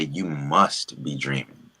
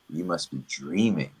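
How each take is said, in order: First: The stress is on "must". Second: The stress is on "dreaming".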